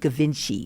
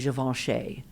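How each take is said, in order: First: The name is said with English-style sounds. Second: The name is said with French-style sounds. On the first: The speaker calls it wrong. "we called it Givenchy, and it doesn't even sound good" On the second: The speaker calls it right. "We had to say Givenchy"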